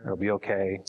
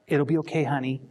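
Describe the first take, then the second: First: Low-key, supportive comfort; plain, gentle reassurance, not pitched up; sincere reassurance. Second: Higher-pitched, condescending reassurance; mock-comforting, pitched up and patronizing. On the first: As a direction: reassure them simply, without talking down. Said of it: "figure out how to do that, just say". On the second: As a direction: soothe them as if talking down to them. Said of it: "without being patronizing". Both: Shown as a demonstration.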